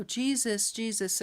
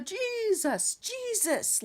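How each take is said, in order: First: Said in the usual way. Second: High, drawn-out televangelist cry. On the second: Retold or imitated. Dreamer chasing the demon off the yard, televangelist style. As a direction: call it out like an all-powerful TV preacher. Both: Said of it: "I'm saying it like the televangelist".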